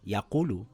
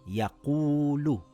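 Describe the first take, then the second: First: The middle vowel is cut short. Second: The middle vowel is held for two counts. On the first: The speaker calls it wrong. "not yaqulu" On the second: The speaker calls it right. "stretching it for two counts"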